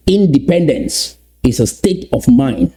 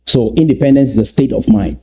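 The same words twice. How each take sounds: First: Stretched out, each word given time; slowly repeated. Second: Said in the usual way. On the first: Shown as a demonstration. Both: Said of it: "Let me repeat that slowly".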